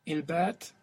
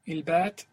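The two takes are said the same way.

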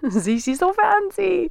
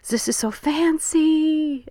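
First: It is spoken in the speaker's plain accent. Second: It is spoken with a French accent.

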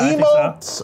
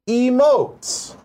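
First: The word is said with plain, ordinary pitch. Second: The word is said with an odd pitch inflection. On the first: The speaker calls it right. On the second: The speaker calls it wrong.

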